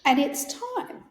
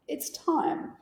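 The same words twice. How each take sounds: First: Said in the usual way. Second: Soft whisper. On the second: Retold or imitated. Granddaughter echoing the nurse's gentle words, whispered. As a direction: breathe the words out unvoiced.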